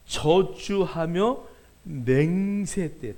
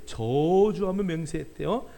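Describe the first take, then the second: First: 저주하며 맹세했대요 drawn out very slowly, each word leaned on; 천천히 힘주어; slow emphatic. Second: 저주하며 lifted and hit, 맹세했대요 following slowly; 저주하며에 강세; stress on 저주하며. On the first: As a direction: spell out 저주하며 and 맹세했대요 syllable by syllable. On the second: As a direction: punch 저주하며 then settle. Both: Shown as a demonstration.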